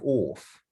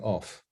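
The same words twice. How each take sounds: First: The word is said in an old-fashioned royal accent. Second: The word is said in a standard modern accent. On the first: "So we say things like off" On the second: "meaning off"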